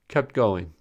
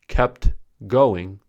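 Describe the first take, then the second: First: The t at the end of kept is dropped. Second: The t at the end of kept is pronounced. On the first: The speaker calls it right. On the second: The speaker calls it wrong.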